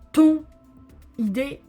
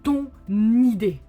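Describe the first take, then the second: First: The two words are said separately, without linking. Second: The final consonant links into the next vowel. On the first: The speaker calls it wrong. "non, non" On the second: The speaker calls it right. "We say ton idée"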